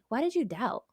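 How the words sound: It sounds gentle and compassionate. The listener is being cared for. "filled with compassion"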